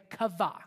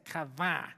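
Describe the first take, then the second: First: Said in the usual way. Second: KAVAH said low, in an altered voice; demonstrated pronunciation. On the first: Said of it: "Everybody say kavah". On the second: Shown as a demonstration. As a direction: drop the pitch on KAVAH for effect. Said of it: "Now say it like this".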